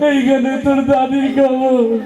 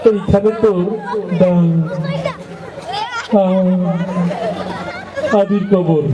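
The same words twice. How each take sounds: First: It is recited in a weeping, sobbing voice. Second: It is recited haltingly with stuttering. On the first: An emotional student who always cries is reciting. "ও আগেই কান্দা শুরু করে দিছে" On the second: A boy who stutters is reciting. "একটু তোতলা টাইপের, কথা বাইরে দিতে সময় লাগে"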